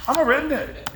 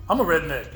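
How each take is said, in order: First: High-pitched indignant protest; retold insistence. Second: Said in the usual way. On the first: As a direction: insist on it, pitch jumping right up.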